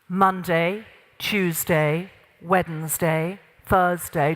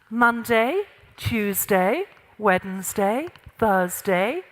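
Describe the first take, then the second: First: The delivery sounds firm and authoritative. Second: The delivery sounds relaxed and less authoritative.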